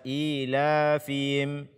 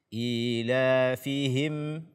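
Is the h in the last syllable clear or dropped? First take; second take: dropped; clear. First: The h in the last syllable is dropped. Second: The h in the last syllable is clear. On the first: The speaker calls it wrong. "Jangan dibaca ilafihim" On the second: The speaker calls it right. "membaca ha dengan jelas"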